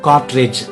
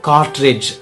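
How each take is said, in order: No difference in how they are said.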